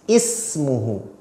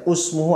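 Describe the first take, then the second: First: The word begins with an i vowel. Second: The word begins with a u vowel. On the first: The speaker calls it right. "pasti dibaca i" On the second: The speaker calls it wrong. "tidak boleh dibaca usmuhu"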